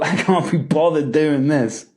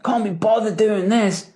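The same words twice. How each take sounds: First: A sigh of a line, weighed down; heavy, can't-be-bothered tone; heavy, unmotivated. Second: Light and joking, higher at the start; fun, carefree take on a gripe; playful, not serious. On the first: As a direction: say it like you're drained. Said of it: "That's a heavy feeling". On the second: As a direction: toss it off like it's a joke. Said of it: "Happiness, fun. You're not even taking the statement seriously". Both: Shown as a demonstration.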